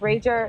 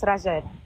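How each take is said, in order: First: The name is said with English sounds. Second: The name is said with Portuguese sounds. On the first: "So in English, it's Rager" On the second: "technically, it's Rajed"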